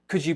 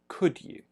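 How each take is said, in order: First: Could is said with a weak, reduced vowel. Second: Could is said with a full, rounded vowel.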